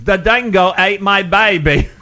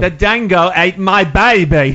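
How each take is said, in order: First: Louder, slow, laughing mock Australian accent; quoted Australian line. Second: Loud, slow, hammed-up Australian accent; mock Australian accent. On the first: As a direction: quote the musical's line in a hammed-up Aussie accent. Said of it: "that was one of the lines". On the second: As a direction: belt it out like a cartoon Aussie, slow and loud. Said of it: "Can you do an Australian accent?".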